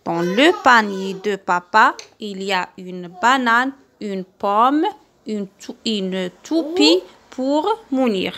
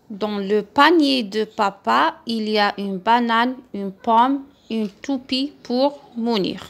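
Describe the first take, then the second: First: Slow reading aloud. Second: Said in the usual way. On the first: Shown as a demonstration. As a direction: read it slowly and clearly for children. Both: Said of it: "à haute voix le texte".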